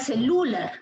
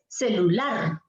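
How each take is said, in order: First: The stress is on the middle syllable. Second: The stress is on the last syllable. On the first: The speaker calls it wrong. "Si fuera Lu, sería celular" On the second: The speaker calls it right. "Es celular. ... la presencia del acento en la sílaba lar"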